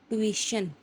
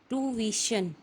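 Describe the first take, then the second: No difference in how they are said.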